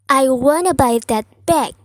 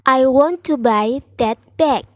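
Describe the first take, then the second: First: Want and to merge into one word, wanna. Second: Want and to are said as separate words.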